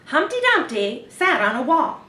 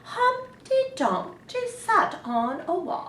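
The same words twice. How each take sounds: First: It is said like a news reporter. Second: It is said in a grand royal voice.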